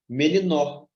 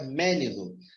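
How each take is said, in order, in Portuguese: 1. A sílaba tônica está na última sílaba. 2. A sílaba tônica está na primeira sílaba. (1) "Se eu colocar aqui no nó e, e pronunciar com mais força" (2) "Se eu colocar aqui no, no mé e pronunciar com mais força"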